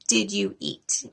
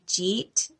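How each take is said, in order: First: Each word is said distinctly and slowly. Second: The words are blended into one short syllable. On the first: The speaker calls it right. "slow down and say all of your words" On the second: The speaker calls it wrong. "You wouldn't want to say jeet"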